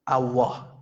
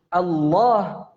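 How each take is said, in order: First: The L sound is made with rounded lips. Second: The L sound is a thick tongue L. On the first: The speaker calls it wrong. "Ini dengan syafatain" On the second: The speaker calls it right. "Lam yang dibaca dengan tebal"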